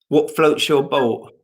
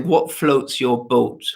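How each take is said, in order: First: The words are run together in relaxed everyday speech. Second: Each word is carefully and crisply enunciated. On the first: "say it how you normally say it" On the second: "You said you really you really enunciated it then"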